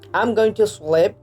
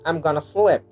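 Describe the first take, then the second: First: 'Going to' is said fully and separately. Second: 'Going to' blends into one reduced form.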